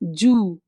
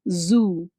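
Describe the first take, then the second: First: The word begins with a j sound. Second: The word begins with a z sound. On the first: The speaker calls it wrong. "They say this is absolutely wrong" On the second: The speaker calls it right. "but it is zoo"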